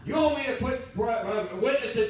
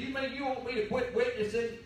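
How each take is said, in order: First: Higher, louder, offended wife; indignant Pharisee question. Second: Lightly voiced wife, asking in mild disbelief; a touch of a wife's puzzled surprise; surprised question. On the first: Retold or imitated. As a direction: huff it out like a shocked church lady. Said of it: "Sound like a spiritual Pharisee". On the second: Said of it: "she said".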